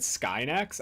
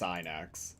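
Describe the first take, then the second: First: It begins with an 'sk' sound. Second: It begins with a plain 's' sound. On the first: "I've always said Skynax" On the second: "or if it's Synax"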